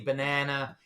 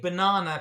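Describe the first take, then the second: First: Banana is said with an American accent. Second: Banana is said with a British accent. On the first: It fits in with the listeners. "So I have to say banana" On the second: It sounds foreign to the listeners. "if I say banana, people start laughing"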